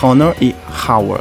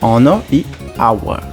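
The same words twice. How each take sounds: First: The words begin with an audible h sound. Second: The words begin with a silent h. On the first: The speaker calls it wrong. "A gente não vai pronunciar" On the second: The speaker calls it right. "A gente vai pronunciar"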